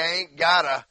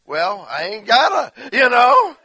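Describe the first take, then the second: First: Said in the usual way. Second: Higher, louder mock drawl of bad grammar; hammed-up slang. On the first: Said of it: "You say". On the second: Shown as a demonstration. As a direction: belt out the sloppy grammar for laughs. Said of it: "you just slaughter it".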